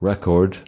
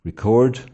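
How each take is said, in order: First: The stress is on the first syllable. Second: The stress is on the second syllable. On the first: It is a noun. "most two-syllable nouns and adjectives are stressed on the first syllable" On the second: It is a verb. "most two-syllable verbs are stressed on the second syllable"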